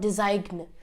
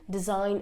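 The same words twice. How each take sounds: First: The G sound is pronounced. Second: The G sound is silent. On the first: The speaker calls it wrong. "it's not" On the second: The speaker calls it right. "you cannot really hear the G"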